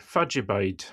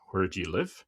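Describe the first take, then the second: First: "Fadjabide" run together as one word in Doric, fad-ja-bide; "Fadjabide" in a light Aberdeen accent, all one word; Aberdonian dialect. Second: Said in the usual way. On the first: Shown as a demonstration. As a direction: say "Fadjabide" quick and clipped like a local from Aberdeen. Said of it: "you would say". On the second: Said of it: "So instead of saying".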